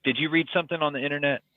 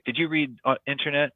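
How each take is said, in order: First: Said in the usual way. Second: Light imitation of a heavy Korean accent; mock Korean accent, lightly done. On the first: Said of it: "he's like". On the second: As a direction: quote the headmaster with a hint of Korean accent. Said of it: "heavy Korean accent".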